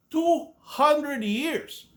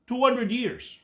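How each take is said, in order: First: "Two hundred years" dragged out slowly, stress on "Two", rising at the end; slow emphatic repeat. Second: Said in the usual way. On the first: Real, not acted. Ranting vlogger hammers home how long the Crusades lasted, slow and stressed. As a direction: land each word of "Two hundred years" slowly, as if it's unbelievable.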